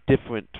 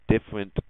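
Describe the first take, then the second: No difference in how they are said.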